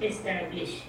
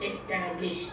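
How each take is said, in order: The two takes are said the same way.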